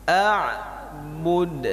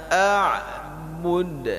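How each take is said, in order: Both takes have the same delivery.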